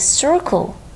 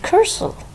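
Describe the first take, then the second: First: The word begins with an S sound. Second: The word begins with a K sound. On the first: The speaker calls it right. "Why it is circle" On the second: The speaker calls it wrong. "not cursor?"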